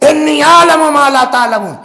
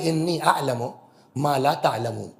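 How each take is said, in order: First: It is said sharply and dismissively. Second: It is said softly and affectionately. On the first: The listeners have no right to object. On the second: The listeners simply cannot understand as much as the speaker.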